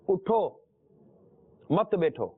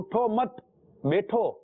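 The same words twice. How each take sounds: First: There is a pause after the first word. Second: There is no pause after the first word.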